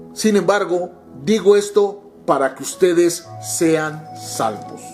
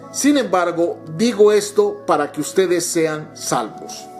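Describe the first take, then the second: Both takes have the same delivery.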